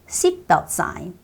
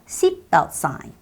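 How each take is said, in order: No difference in how they are said.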